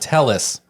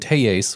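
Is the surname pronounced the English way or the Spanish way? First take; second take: English; Spanish. First: The surname is said with an English pronunciation. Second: The surname is said with a Spanish pronunciation. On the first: This is how the man himself said his name. "That's how he'd say it all the time" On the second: This is how the name was said at the trial.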